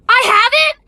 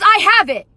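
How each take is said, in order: First: "I have it?" rising high at the end; incredulous question. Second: Said in the usual way. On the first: Retold or imitated. Mocking her own blurted words, incredulous question on "I have it?". Repeats her blunder in disbelief. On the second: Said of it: "what came out of my mouth was".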